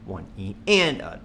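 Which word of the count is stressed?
and. The stress falls on the word and. "The next bar will be on the and"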